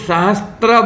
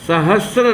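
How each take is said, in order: First: A 't' sound comes before the 'r'. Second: No 't' sound comes before the 'r'. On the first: The speaker calls it wrong. "इसको बहुत लोग सहस्त्र बोलते हैं, वो बोलना शुद्ध नहीं है" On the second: The speaker calls it right. "सहस्र नाम का शब्द शुद्ध होता है"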